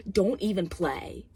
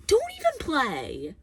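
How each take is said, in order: First: Said in the usual way. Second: High, drawn-out emphatic warning; indignant, slow high-pitched repeat; escalated exasperated warning. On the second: Real, not acted. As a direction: raise the pitch and stretch it out in exasperation.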